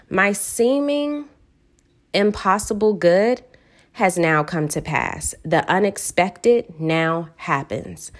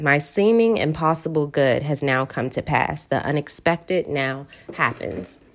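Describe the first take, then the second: First: Slow, deliberate reading, each phrase spaced out and savoured; slow affirmation. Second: Said in the usual way. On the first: Shown as a demonstration. Reading her favorite affirmation to listeners, slow and deliberate. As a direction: let every word of the affirmation land slowly. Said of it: "I say this one over and over again". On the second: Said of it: "this one reminds me to do just that".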